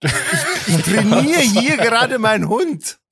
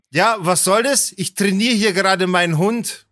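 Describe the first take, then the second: First: High, slow mock outrage; hammed-up indignation. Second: Lightly voiced affronted retort; mildly indignant. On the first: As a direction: repeat it in a pitched-up affronted voice. Repeats owner's absurd line for effect. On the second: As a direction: imitate an annoyed owner justifying themselves. Retold indignant dog owner, first take.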